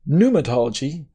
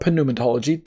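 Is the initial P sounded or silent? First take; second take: silent; sounded. First: The word begins with a plain N sound. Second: The word begins with a P sound before N.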